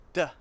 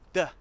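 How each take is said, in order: Both takes have the same delivery.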